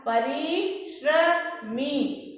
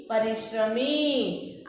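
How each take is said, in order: First: परिश्रमी stretched very slowly, with the श्र clear; very slow syllables. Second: परिश्रमी slow, lower and softer, falling; softer closing repeat. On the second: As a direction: close परिश्रमी softly. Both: Shown as a demonstration. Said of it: "इसका उच्चारण कैसे करेंगे?".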